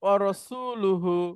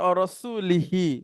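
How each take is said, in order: First: The word ends with u vowels: rasuluhu. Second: The word ends with i vowels: rasulihi. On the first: The messenger also cut ties with the polytheists. The speaker calls it right. "এই লামের উপরে পেশ" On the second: Ties were cut with the messenger himself. The speaker calls it wrong. "জের দিয়ে পড়ি, তাহলে তখন হায়ের নিচেও জের হয়ে যাবে"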